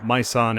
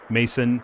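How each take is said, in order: First: The name is said with a French-like sound. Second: The name is said like the English word mason. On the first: "I was kind of going French with it" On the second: "mason may be a good pronunciation"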